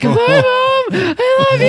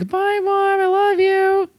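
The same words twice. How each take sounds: First: It is said frantically, in a broken voice. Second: It is said calmly and sweetly.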